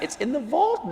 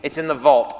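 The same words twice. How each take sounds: First: High, hushed disbelieving question; soft, high-pitched incredulity; amazed echo. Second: Said in the usual way. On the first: Acted. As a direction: repeat it softly in wonder, voice climbing. Echoing the concierge in amazement.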